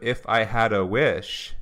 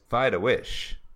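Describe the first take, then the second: First: The 'f' and the 'h' are both clearly pronounced. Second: The 'f' becomes a 'v' and the 'h' is dropped. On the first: "instead of" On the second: "she reduces the F to a V, and then the H is removed"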